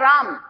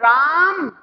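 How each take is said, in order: First: The vowel is held for a normal length. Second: The vowel is stretched out long, like a call. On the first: The word is simply named. "एक शब्द है राम" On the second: Someone far away is being called. "आ की आवाज जो है वो बड़ी दूर तक गई"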